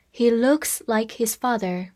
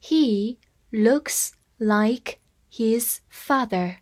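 First: Said in the usual way. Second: Very slow, word by word; slow reading. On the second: Shown as a demonstration. Teacher reading slowly to students, word by word. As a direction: read it slowly for learners. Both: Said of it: "我们慢慢来读一下".

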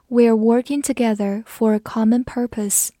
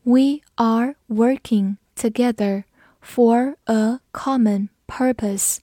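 First: Said in the usual way. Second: Slow, word by word with pauses; slow, careful model reading; slow read-through. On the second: Shown as a demonstration. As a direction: read it slowly for learners to follow. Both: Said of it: "跟着我慢读一遍".

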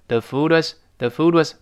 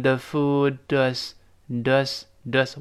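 First: "food was" run together at normal pace; linked at speed. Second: "food was" drawn out slowly, D sliding into "was"; gently linked. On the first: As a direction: say "the food was" as one unit, D into W. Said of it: "读快的时候连在一块儿了". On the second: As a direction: slowly join "food was" into "foo-dwas". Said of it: "轻轻连在一块儿". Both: Shown as a demonstration.

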